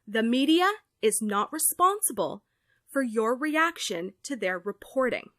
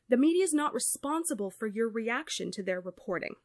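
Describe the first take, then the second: First: It is said more loudly. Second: It is said at normal volume.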